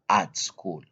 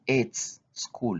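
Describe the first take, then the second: First: The vowel in 'at' sounds like 'ah'. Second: The vowel in 'at' sounds like 'ay'. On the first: The speaker calls it right. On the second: The speaker calls it wrong. "we don't say"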